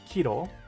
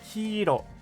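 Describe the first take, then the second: First: The first vowel is short, one quick syllable. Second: The first vowel is long, held slightly apart. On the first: It means kilogram. The speaker calls it wrong. "it shouldn't be kiro, because that's a kilogram" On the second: It means yellow. The speaker calls it right. "It should be kiro"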